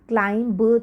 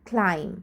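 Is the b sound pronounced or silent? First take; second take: pronounced; silent. First: The b sound is pronounced after the m. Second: The b sound is silent after the m. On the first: The speaker calls it wrong. "क्लाइम ब तो नहीं बोलते ना" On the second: The speaker calls it right. "सिर्फ एम पे आके sound रुक जाती है"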